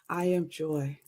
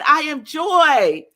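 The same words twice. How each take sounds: First: It is said weakly, without conviction. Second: It is said strongly, with conviction.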